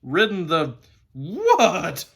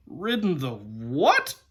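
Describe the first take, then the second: First: Loud, slow whinnying WHAT; horse's neigh. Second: Drawn-out incredulous scorn, rising on WHAT; slow, disdainful disbelief; extreme contempt. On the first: Horse retorting to the boy, contempt turning into a neigh. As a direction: neigh the words in outrage, stretched out and high. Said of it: "it came out in sort of a neigh". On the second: Horse retorting to the boy about the donkey, contemptuous. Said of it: "with extreme contempt". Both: A narrator's reading.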